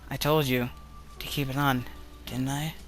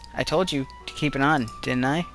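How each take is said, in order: First: The voice sounds weaker and softer. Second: The voice sounds fairly strong.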